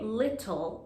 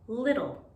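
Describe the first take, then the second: First: The middle consonant is a crisp T sound. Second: The middle consonant sounds like a soft D. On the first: "we don't say little like in British English" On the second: "the T sound is often said as D"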